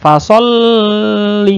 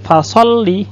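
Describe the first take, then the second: First: The L is held for too long. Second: The L is doubled and pressed but released quickly. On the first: The speaker calls it wrong. "tidak boleh terlalu lama" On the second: The speaker calls it right.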